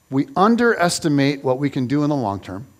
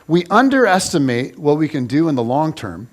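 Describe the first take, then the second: No difference in how they are said.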